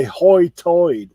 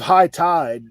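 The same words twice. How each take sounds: First: Outer Banks brogue. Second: Said in the usual way. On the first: Shown as a demonstration. Explaining the local dialect to a friend, Outer Banks hoi toid. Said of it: "but they say". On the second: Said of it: "so we have high tide".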